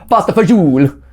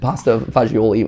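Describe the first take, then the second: First: It is said with a heavy Italian accent. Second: It is said with a plain English pronunciation. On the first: It imitates someone proud of his Italian heritage. "here's the heavily accent" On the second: It is read the way it is spelled. "which is how at least how it's like spelled"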